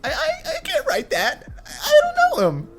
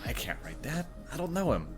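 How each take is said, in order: First: It is said in a high, squeaky voice. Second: It is said in a normal, unsqueaky voice.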